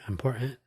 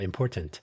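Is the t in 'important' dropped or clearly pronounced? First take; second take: dropped; pronounced. First: The middle t sound is dropped. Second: The middle t sound is clearly pronounced. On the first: The speaker calls it wrong. "Who needs that extra T in there?" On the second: The speaker calls it right. "The old and correct way to pronounce that word"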